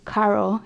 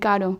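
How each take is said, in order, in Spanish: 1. La r es suave, estilo inglés. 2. La r es un toque rápido y simple. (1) "si dicen Caro en vez de" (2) "la simple, la R"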